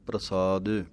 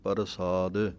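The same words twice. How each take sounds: First: It starts with a tight pr cluster and plain s. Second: The r is said as a full separate syllable. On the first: The speaker calls it right. "ਸਸੇ ਦੇ ਨਾਲ ਬੋਲਣਾ ਹੈ ਬਿਨਾਂ ਬਿੰਦੀ ਤੋਂ, ... ਪੈਰ ਦੇ ਵਿੱਚ ਰਾਰਾ ਹੈ" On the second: The speaker calls it wrong. "ਕਈ ਵਾਰੀ ਰਾਰਾ ਪੂਰਾ ਲਾ ਦਿੰਦੇ ਹਾਂ"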